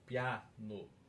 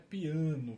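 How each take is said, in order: First: The first a is open, not nasal. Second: The first a is nasalized. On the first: It names the soft musical dynamic. The speaker calls it right. "com um A meio aberto" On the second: It names the musical instrument. The speaker calls it wrong. "Não é piano com o A anasalado"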